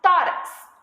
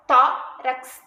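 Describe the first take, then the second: First: Said in the usual way. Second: "tórax" split as TÓ, rax, loud first syllable; stressed syllable demo. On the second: Shown as a demonstration. Teacher shows pupils the tonic syllable, "tórax" split TÓ-rax. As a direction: break "tórax" in two, punching tó. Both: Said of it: "a sílaba tônica é o to".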